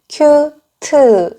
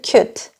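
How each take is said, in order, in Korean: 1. 두 음절로 발음해요. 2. 한 음절로 발음해요. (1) "큐트 이렇게 이음절이 되죠" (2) "한음절인데"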